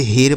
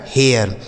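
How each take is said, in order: First: हेर said as "her" with long Hindi e, no glide; wrong ai reading. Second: हेयर said as "he-yar", e gliding into a before r; correct air glide. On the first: Teacher shows class the misreading, हेर as one syllable with long e. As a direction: run हेर's long e straight into r. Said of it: "क्या हम इसे ऐसे ही पढ़ेंगे". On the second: Teacher models the right reading, हेयर as gliding "he-yar". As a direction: open the e of हेयर into "eya" before the r. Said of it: "ए आई का उच्चारण एय". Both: Shown as a demonstration.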